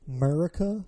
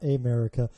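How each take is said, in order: First: AMERICA slurred into 'Murica; regional pronunciation. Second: Said in the usual way. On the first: Shown as a demonstration. Regional name against the standard one.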